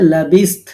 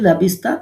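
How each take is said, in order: First: The word ends on a bare consonant. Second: The word ends with a final vowel sound. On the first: The reader stops after this word. "থামলে" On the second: The reading continues on without stopping. "যদি মিলা পড়ি"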